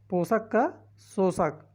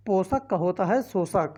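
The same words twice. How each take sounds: First: पोषक का शोषक spelled out slowly for students to memorise; slow, deliberate पोषक का शोषक; slow emphasis. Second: Said in the usual way. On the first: Shown as a demonstration. Teacher to exam students, drilling an antonym: slow deliberate repetition.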